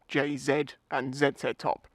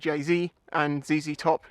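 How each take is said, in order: First: The letter Z is said the British way. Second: The letter Z is said the American way. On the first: "not J Z and Z Z top" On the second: "but I also say J Z and Z Z top"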